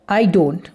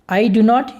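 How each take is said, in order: First: 'Do not' is shortened into one syllable. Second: Both words 'do not' are said separately.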